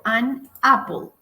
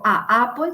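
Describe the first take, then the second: First: "an apple" with a clear "n" linking into "apple"; correct form demo. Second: "a apple" with a long drawn "a" and no "n", the wrong article; wrong form demo. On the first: Teacher giving students the correct article, clearly linked. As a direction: say it right: "an" joined smoothly to "apple". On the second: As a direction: show the mistake: a long bare "a" before "apple". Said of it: "Yo no digo". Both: Shown as a demonstration.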